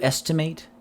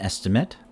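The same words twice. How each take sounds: First: The final syllable sounds like 'eight'. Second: The final syllable sounds like 'it'. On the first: It is the action of calculating roughly. "Verbs ending with A T A, ate, are pronounced like eight" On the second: It names a rough calculation. "Nouns, adjectives, and adverbs pronounced like it"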